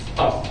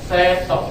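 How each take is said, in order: First: The s and t are joined with no vowel. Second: A short e vowel separates the s and t. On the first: The speaker calls it wrong. "bukan stop" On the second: The speaker calls it right. "yang baku adalah stop"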